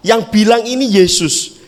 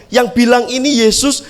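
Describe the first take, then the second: No difference in how they are said.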